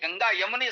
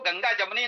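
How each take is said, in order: First: The second word begins with a y sound. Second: The second word begins with a j sound. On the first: The speaker calls it right. "Ganga यमुनी संस्कृत कहना चाहिए" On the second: The speaker calls it wrong. "वो गंगा जमुनी नहीं"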